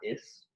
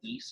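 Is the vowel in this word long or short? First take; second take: short; long. First: The vowel is short. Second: The vowel is long. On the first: The speaker calls it wrong. "not is" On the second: The speaker calls it right. "It's an I with a macron. Why we pronounce it like is"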